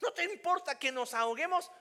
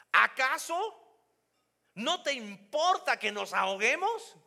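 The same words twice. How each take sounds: First: "No" leaned on, rising reproach; accusing tone. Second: "Acaso" drawn out very slowly, high and loud; accuse, don't ask; reproachful complaint. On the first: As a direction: stress "No" as a reproach. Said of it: "¿Ves la diferencia acá?". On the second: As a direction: disciples blaming the sleeping Jesus. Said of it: "¿Te das cuenta de la diferencia". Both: Shown as a demonstration.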